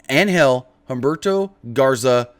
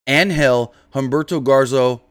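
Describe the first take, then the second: Both takes have the same delivery.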